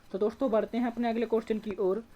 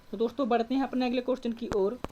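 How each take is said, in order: Both takes have the same delivery.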